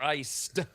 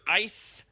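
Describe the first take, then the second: First: The word ends with a d sound. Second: The word ends without a d sound.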